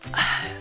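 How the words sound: It is said in a soft whisper.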